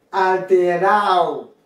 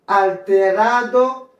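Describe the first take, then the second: First: Alterado said "al-te-RAO", slow and falling; "alterado" with its D silent; dropped D. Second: Alterado slowly with "-RA-do" sounded; "Alterado" ending in a distinct "-ado"; full D. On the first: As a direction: slide A into O in alterado. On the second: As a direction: say Alterado in full, D clearly heard. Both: Shown as a demonstration. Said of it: "ou qu'à prononcer ou qu'à pas".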